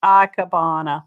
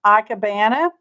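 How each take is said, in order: First: Ikebana said as "AH-keh-BAH-nuh" with open "ah" vowels and a lower, falling close; second, surer go at Ikebana; corrected pronunciation. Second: Ikebana said as "EYE-keh-BAN-uh" with a rising, questioning end; first tentative go at ikebana; unsure pronunciation. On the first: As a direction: settle on Ikebana with broad "ah" sounds. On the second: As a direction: try ikebana with a long "eye" start and a flat "an". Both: Shown as a demonstration. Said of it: "I'm probably gonna pronounce the word wrong".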